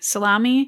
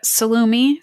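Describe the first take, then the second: First: Salami with an ah in the middle; second pronunciation attempt. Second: Salumi tried with an oo in the middle; unsure pronunciation. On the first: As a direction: try "salami" as suh-LAH-mee, rising at the end. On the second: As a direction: say "salumi" as suh-LOO-mee, a tentative attempt. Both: Shown as a demonstration. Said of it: "probably pronouncing this wrong".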